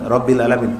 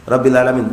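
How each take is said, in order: The two takes are said the same way.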